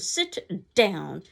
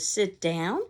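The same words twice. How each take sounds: First: It is said as a forceful exclamation. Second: It is said as a rising question.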